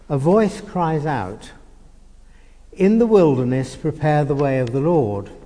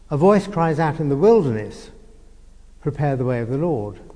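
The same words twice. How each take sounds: First: The pause comes before 'in the wilderness'. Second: The pause comes after 'in the wilderness'.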